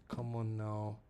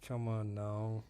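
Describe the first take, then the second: No difference in how they are said.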